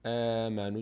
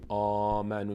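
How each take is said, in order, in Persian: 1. مصوت اول باریک و سبک است. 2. مصوت اول پُر و سنگین است. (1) "میگیم آمنو، دهان به سمت بغل باز میشه" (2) "نمیگیم آمنو"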